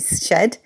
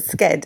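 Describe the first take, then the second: First: The word is said the British way, like 'shed'. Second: The word is said the American way, like 'sked'.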